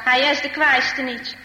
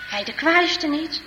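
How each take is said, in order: First: Said in the usual way. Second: "Hij de kwaaiste niet" slowly, as a question; doubting echo question. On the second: Acted. Laurens doubtfully echoes grandpa's words. ("Hij de kwaaiste niet" traag en vragend herhaald)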